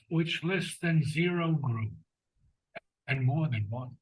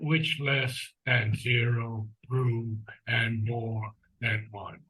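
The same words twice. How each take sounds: First: The pitch moves up and down throughout. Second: The pitch stays mostly flat throughout. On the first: The speaker calls it right. "It's it's in the inflection" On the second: The speaker calls it wrong. "it's not"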